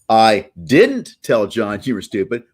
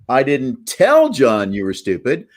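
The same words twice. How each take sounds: First: The stress is on didn't. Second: The stress is on tell.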